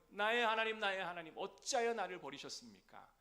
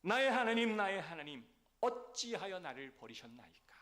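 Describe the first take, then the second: First: The same cry again, a little less loud, high; repeated cry. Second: Loud, high cry of abandonment to God; anguished cry. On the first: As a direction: call out to God once more, still pained. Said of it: "뭐라고요?". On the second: Christ's cry on the cross. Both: Acted.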